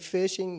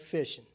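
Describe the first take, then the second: First: The word ends with a full 'ing' sound. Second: The word ends with a clipped 'in' sound. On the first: "You don't say" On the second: "you say ... dropped that last syllable"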